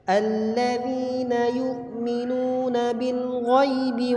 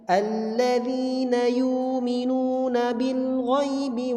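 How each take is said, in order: First: A glottal stop is kept in yu'minuna. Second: The glottal stop becomes a long vowel. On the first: This follows one recognized reading tradition. "Ini riwayat Hafs an Asim" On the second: This follows another recognized reading tradition. "Dia mengganti hamzah pada kalimat yu'minun dengan huruf mat"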